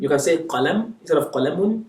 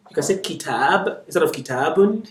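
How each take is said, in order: First: Qalam with the ending dropped, then qalamun with the un sounded; short and full form. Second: Kitab clipped, then kitabun with the un sounded; short and full form. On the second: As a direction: set kitab against kitabun. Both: Shown as a demonstration.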